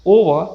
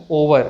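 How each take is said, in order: First: ओवर ending in "ah"; silent r. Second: ओवर with a final r; sounded r. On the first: Teacher gives correct word, final r silent. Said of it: "आ में change हो जाता है". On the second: Teacher warns against this version, r sounded. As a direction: pronounce the r ending ओवर. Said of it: "ना कि". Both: Shown as a demonstration.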